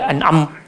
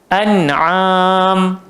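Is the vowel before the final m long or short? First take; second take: short; long. First: The vowel before the final m is short. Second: The vowel before the final m is long. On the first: The speaker calls it wrong. "tak boleh an'am" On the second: The speaker calls it right. "Kenapa kena panjang? Pasal ada alif mad"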